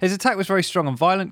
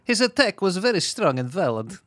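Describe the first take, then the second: First: It is read in the speaker's natural accent. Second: It is read in a put-on foreign accent. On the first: "Just do it in your voice" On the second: "No, that's not how that's sort of Russian Borat"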